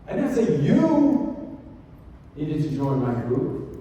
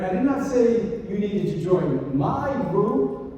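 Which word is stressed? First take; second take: I; my. First: The stress is on the word I. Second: The stress is on the word my.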